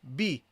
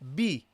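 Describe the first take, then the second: The two takes are said the same way.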